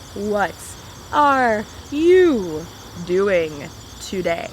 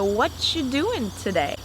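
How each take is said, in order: First: Each word is said clearly and separately. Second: The words are reduced and blended together. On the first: "I would almost never say" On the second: "this is a casual way of speaking"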